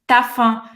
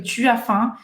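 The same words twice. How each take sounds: First: "tá fã" with the u swallowed; real French contraction. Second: "Tu as faim" with all three words sounded; bookish school French. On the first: Emílio explaining how people in France speak, "tá fã" contracted. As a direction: merge "Tu as" into "tá" before "fã". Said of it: "a gente fala assim". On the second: Emílio imitating textbook French, "Tu as faim" uncontracted. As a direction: keep the u in "Tu", no contraction in "as faim". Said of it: "a falar desse jeito". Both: Retold or imitated.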